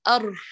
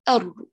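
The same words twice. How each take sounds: First: The r is breathy with escaping air. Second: The r is fully voiced and firm. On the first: The speaker calls it wrong. "لو أخرت قليلا عند غار الحنك ... كمان همس" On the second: The speaker calls it right. "تقوي اعتمادك على المخرج والوتران يتقاربان"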